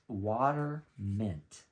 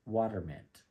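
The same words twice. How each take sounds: First: "Water mint" drawn out very slowly, each word lingered on; slow, lingering "Water mint"; slow savoring. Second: Said in the usual way. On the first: Shown as a demonstration. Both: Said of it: "And the note".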